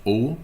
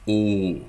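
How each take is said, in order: First: O kept short as the wrong example; a short German O, the wrong way. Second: O drawn out long as the right example; a lengthened German O, the right way. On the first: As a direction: clip the O. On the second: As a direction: stretch the O. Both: Shown as a demonstration. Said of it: "It's longer".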